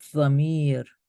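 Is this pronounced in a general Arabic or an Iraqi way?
Iraqi. It is pronounced in an Iraqi accent. "Now I read it like in my own Iraqi way"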